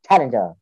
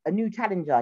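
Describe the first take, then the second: First: Lightly imitated fighting-game announcer, lower; a hint of arcade announcer, pitched down. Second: Said in the usual way. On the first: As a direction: announce a challenger like a video game. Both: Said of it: "like a Super Smash game".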